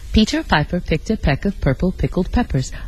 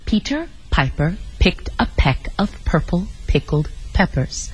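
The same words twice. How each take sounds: First: It is said at a quicker pace. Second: It is said very slowly.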